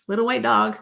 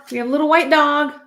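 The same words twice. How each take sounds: First: Said in the usual way. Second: Excited. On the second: Real, not acted. Tarot reader spotting a dog on the card, excited. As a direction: blurt it out as you spot it.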